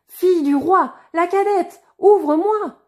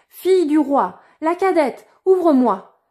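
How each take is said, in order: First: Much higher, loud sing-song call; insistent higher call. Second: Loud, high call at the door. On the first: Frog repeating its call at the door, higher and louder. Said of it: "la voix appela". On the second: Frog calling the princess a second time, loud call. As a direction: knock and call her by name. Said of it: "on frappa pour la seconde fois à la porte et la voix appela". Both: A narrator's reading.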